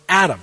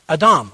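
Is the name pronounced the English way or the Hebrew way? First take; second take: English; Hebrew. First: It is pronounced the English way. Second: It is pronounced the Hebrew way. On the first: "as we would say" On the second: "the word for man is just Adam"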